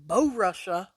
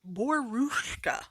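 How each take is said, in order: First: It is said in a Southern American accent. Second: It is said in an attempted German pronunciation. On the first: This is how the name looks when read by eye. "it looks like Borussia with my southern accent" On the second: This is the pronunciation someone else taught. "is how someone told me to pronounce it last season"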